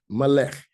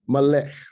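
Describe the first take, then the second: The two takes are said the same way.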